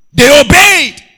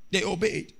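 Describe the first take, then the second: First: High, loud burst on obeyed; preaching shout. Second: Softer repeat; quiet echo. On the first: Preacher stressing obedience to the church, shouting. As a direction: throw it out. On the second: Preacher echoing to the church, quiet. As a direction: drop it down after the shout. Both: Real, not acted.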